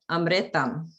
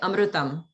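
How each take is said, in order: First: The vowel after the r sounds like 'i'. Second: The vowel after the r sounds like 'u'. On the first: This is the usual North Indian way. "In the North, they might say it more like amritam" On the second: This is the usual South Indian way. "like we say amrutam"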